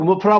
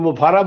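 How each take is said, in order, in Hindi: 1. नाम दो अक्षरों में बोला जाता है, और 'ah' पर खत्म होता है। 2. नाम तीन अक्षरों में बोला जाता है, और 'ah' पर खत्म होता है। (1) "हम लोग मुफरा बोलते हैं" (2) "कोई मुफारा बोलते हैं"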